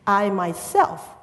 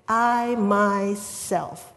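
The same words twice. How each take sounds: First: Said in the usual way. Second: "I myself" drawn out very slowly, leaning hard on "I"; emphatic I myself. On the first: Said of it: "here I want to emphasize". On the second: Shown as a demonstration. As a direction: stretch "I myself" and press the "I". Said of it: "here I want to emphasize that the Greek word for "I"... very emphatic".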